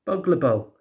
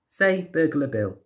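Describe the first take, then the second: First: Put-on "Boggle Bol" said high, garbled baby version of Burglar Bill; baby mispronouncing. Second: Put-on slow, higher, clear prompt to a baby; slow teaching. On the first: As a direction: babble "Boggle Bol" like a toddler trying the name. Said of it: "says the baby". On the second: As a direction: spell it out slowly for a baby to copy. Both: A narrator's reading.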